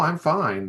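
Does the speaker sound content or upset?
content. The voice sounds light and content. She really is fine.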